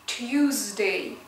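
The word begins with a 'tyoo' or 'choo' sound.

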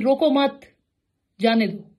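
The pause comes right after 'mat'.

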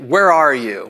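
It is said harshly, like an accusing demand. An authority is confronting a suspect. The speaker calls it wrong. "kind of like an arresting police officer"

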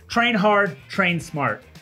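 It is said with strong feeling.

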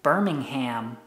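It is said in an American accent.

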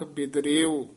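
There is a slight break between 'bid' and 'rio'. The speaker calls it right. "ਬੇਦ ਅਤੇ ਰਿਓ ਦੇ ਵਿੱਚ dash ਦੇ ਕੇ ਬੋਲਣਾ ਹੈ"

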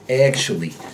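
It has a Russian accent with a nasal A. "The Russian speaker tends to nasalize the short A"

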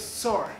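The name is said the American way. "Estados Unidos"

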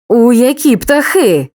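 The voice sounds threatening and menacing. The speaker is warning or threatening. "погрозу"

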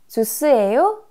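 The pitch rises at the end. It asks whether this is juice. "Вопрос"

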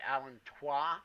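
The word is pronounced the French way. The speaker calls it wrong. "if you're a French person, you might say allantois"

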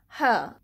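It is said in a British accent. "Now let's see the British pronunciation"

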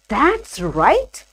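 The voice rises at the end. The speaker is asking whether something is correct. "And for question"

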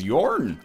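It is said in a goofy voice with an R sound.

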